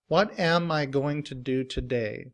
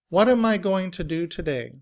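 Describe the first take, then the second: First: 'What am' is said as two full words. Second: 'What am' is linked and reduced to 'whatum'. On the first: "In citation form" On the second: "we say whatum, whatum"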